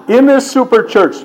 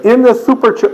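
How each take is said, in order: First: Said in the usual way. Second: "super" lisped as "thuper", higher and louder. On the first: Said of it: "that's me slapping my own face". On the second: Shown as a demonstration. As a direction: slip into th for the s of "super". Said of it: "Do it sweetly and with a lisp".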